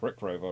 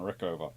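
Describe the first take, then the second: First: An extra R sound starts the second part. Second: No extra R sound starts the second part. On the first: The speaker calls it wrong. "I do keep trying to add another R" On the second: The speaker calls it right. "no, it's Rick Over"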